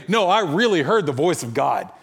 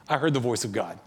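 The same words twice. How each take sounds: First: Acted-out insistence, pressing on "really"; animated, probing version of someone's claim; emphatic claim. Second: Quiet retold affirmation; softly settled, quoting a sure believer; calm certainty. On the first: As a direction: insist it literally happened. Skeptical teller poses emphatic claim. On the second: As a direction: state it simply, without pushing. Friend calmly repeats his claim.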